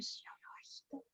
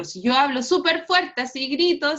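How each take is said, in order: First: Quick, soft whisper; whispering softly. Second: A bit louder, showing a loud voice; speaking loudly. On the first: Teacher shows students a quiet voice, whispering quickly. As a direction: drop to a whisper to show a weak sound. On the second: Teacher demonstrates loud speech to students, a little louder. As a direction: demonstrate talking loud for the class. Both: Shown as a demonstration.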